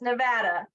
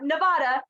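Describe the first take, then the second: First: The word is said in an English-like way. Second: The word is said in a Spanish-like way. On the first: The speaker calls it right. "it's Nevada. We don't say it the way it's actually Spanish" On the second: The speaker calls it wrong. "it's not Nevada"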